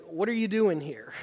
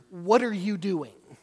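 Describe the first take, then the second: First: Curious, open question, no edge; inquisitive. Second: Louder, slower, accusing; exasperated. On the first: Bible study leader reading the line as a puzzled, curious question. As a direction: ask it like you really want to know. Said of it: "inquisitive asking". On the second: Bible study leader voicing the verse as an exasperated accusation. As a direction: demand it, fed up and annoyed. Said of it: "this exasperated". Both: Shown as a demonstration.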